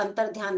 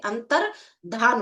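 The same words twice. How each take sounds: First: अंतर्ध्यान with a y glide after dh; wrong form with -dhyan. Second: अंतर्धान slowly, with no y glide; correct form with -dhan. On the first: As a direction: end अंतर्ध्यान in "dhyaan". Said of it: "अंतर्ध्यान नहीं होता है". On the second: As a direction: end अंतर्धान in a drawn-out plain "dhaan". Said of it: "अंतर्धान होता है". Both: Shown as a demonstration.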